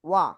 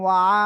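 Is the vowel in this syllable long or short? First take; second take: short; long. First: The vowel is kept short. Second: The vowel is drawn out long. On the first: The speaker calls it right. "ওয়া আকার হবে না কিন্তু, ওয়াও জবর জাস্ট ওয়া" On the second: The speaker calls it wrong. "অনেকে বলতে পারেন ওয়া"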